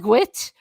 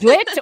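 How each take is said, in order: First: It starts with a gw sound, Cork-style. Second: It starts with a hard d sound, Dublin-style.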